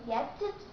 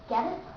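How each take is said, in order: First: The T is a crisp, separate T sound. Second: The T is a soft flap, words linked. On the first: The speaker calls it wrong. "You don't say get it" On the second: The speaker calls it right. "but say get it"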